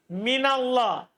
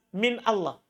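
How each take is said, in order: First: Min runs smoothly into Allah without a break. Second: A glottal break separates min from Allah. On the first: The speaker calls it right. "Antum bilang begini" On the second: The speaker calls it wrong. "Tidak pernah antum bilang apa?"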